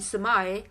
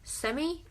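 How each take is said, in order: First: It is said with an American pronunciation. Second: It is said with a British pronunciation. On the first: "in American English" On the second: "in British English"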